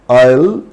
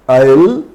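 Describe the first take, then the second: No difference in how they are said.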